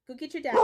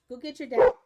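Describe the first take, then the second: First: Said in the usual way. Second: Much louder order to the dog, rising at the end; loud command. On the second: Real, not acted. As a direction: call it out firmly.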